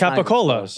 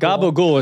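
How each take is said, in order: First: The word is full, ending in a 'cola' sound. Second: The word is clipped, ending in a 'gool' sound. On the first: The speaker calls it right. "That's capicola. It's not even close" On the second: The speaker calls it wrong. "Gabagool is the worst"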